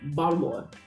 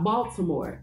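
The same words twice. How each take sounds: First: The name is said the local way. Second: The name is said the non-local way. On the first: The speaker calls it right. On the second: The speaker calls it wrong. "it's not"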